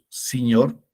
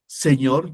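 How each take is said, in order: First: It has Quechua-influenced vowels. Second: It has standard Spanish vowels. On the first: "decimos señor" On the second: "En vez de decir señor"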